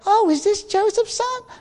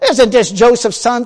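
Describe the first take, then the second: First: It is said in a pleasant, wondering tone. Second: It is said in an angry, offended tone.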